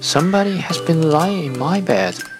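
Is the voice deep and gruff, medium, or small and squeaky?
medium. It is a medium, middle-pitched voice.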